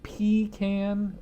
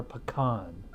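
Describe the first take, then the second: First: "pecan" said PEE-can; first pronunciation of pecan. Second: "pecan" said puh-KAHN; alternative pronunciation of pecan. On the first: Reviewer polling viewers on pronunciation, "pecan" as PEE-can. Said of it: "if you s-, pronounce it". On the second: Reviewer polling viewers on pronunciation, "pecan" as puh-KAHN. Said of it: "pronounce it pecan or pecan". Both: Shown as a demonstration.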